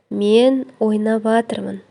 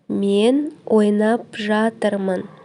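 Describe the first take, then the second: First: Ойнап жатырмын is merged into ойнаватырмын. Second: Each syllable of ойнап жатырмын is said separately.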